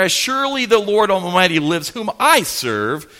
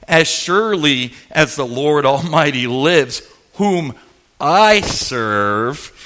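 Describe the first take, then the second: First: Oath run together, leaning on "I" in "I serve"; continuous reading with pointed "I"; little dig. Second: Weighty oath with "I serve" set apart after a pause; pause, then drop low on "I serve"; measured reading, "I" isolated and lowered; pointed dig. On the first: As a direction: flow through, then stress "I" as a dig. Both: Retold or imitated. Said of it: "put that little dig in there".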